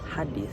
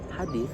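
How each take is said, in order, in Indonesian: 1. Konsonan tengahnya adalah bunyi mirip th. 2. Konsonan tengahnya adalah bunyi mirip th.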